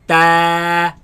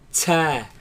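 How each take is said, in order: First: The t is firm with no extra release. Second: The t has a sharp hissing release. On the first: The speaker calls it right. "place the tongue at the roots of the upper teeth" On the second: The speaker calls it wrong. "place the tongue behind the bottom teeth, right, and produce a sharp sound such as ts"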